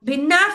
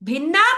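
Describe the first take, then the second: First: The word ends with an added f sound. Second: The word ends on a plain vowel. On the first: The speaker calls it wrong. "భిన్నాఫ్ అని ఎందుకు అంటున్నావు?" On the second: The speaker calls it right. "అక్కడ విసర్గ లేదు"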